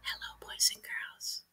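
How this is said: It is said in a whisper.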